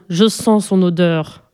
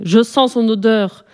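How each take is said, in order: First: Slow, understated monster growl; monstre qui gronde. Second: Slow, mild monster bellow; monstre qui hurle. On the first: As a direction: savour it slowly, lightly menacing. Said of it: "gronda le monstre". (grondement de monstre, lent et retenu) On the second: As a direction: draw out the roared threat, restrained. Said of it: "hurla-t-il". (hurlement de monstre, lent et contenu) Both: A narrator's reading.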